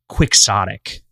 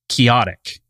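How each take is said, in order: First: The middle consonant is a 'ks' sound. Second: The middle consonant is an 'h' sound. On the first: This is the standard English pronunciation. "In English, it is quixotic" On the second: This follows the Spanish pronunciation of the source name. "So you'd think chaotic, because that would be the combination of the two languages"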